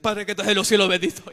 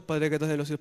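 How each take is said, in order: First: "Padre que estás en los cielos" burst out much louder, loudest on "cielos"; sudden loud prayer. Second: Said in the usual way. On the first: Retold or imitated. Brother crying out his prayer in fear as the possessed woman nears, loud. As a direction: cry the prayer out as fear hits.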